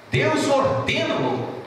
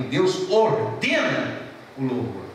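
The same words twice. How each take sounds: First: Deus ordena o louvor said slow and much higher; preacher proclaims Deus ordena o louvor higher and slower; emphatic, higher. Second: Said in the usual way. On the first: Shown as a demonstration. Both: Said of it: "repeated with emphasis".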